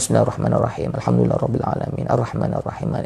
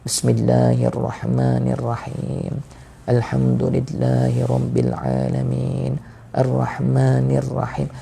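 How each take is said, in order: First: It is recited fast and hurried. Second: It is recited slowly and deliberately.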